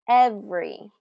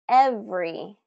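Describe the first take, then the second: The two takes are said the same way.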